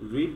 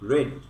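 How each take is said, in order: First: The vowel is a long ee sound. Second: The vowel is a short e sound. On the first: The speaker calls it wrong. "রিড না বলে রেড" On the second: The speaker calls it right. "রেড মানে যে লাল, লাল সেই উচ্চারণটা এখানে হবে"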